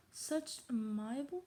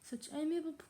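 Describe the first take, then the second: First: "amiable" said as a-MY-a-bul, slow and rising; unsure pronunciation. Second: "amiable" said as AY-mee-a-bul; corrected pronunciation. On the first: Real, not acted. Reader puzzled by an uncommon word, "amiable" said as a-MY-a-bul. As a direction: guess "amiable" with MY in the middle. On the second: Shown as a demonstration. Reader applying the looked-up word, "amiable" said as AY-mee-a-bul. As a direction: say "amiable" with AY first, then mee. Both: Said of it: "not commonly used words".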